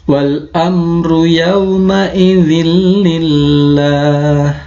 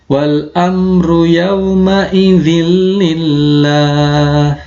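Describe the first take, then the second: No difference in how they are said.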